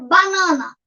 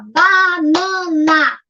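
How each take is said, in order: First: Said in the usual way. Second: BANANA very slowly, BA, NA, NA, each held; syllable by syllable. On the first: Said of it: "aí ele vai ter que pensar". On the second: Shown as a demonstration. Teacher models a child counting, syllable by syllable. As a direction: stretch BANANA into three long beats. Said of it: "três sílabas".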